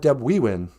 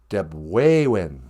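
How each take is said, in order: First: The middle syllable has an 'ee' vowel. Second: The middle syllable has an 'ay' vowel. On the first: The speaker calls it wrong. "It's not Deb we win" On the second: The speaker calls it right. "E's are a, like in the word Ojibwe"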